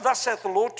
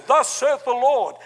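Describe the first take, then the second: First: Said in the usual way. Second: Mock pious voice. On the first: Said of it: "Listen, don't". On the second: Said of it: "And we say".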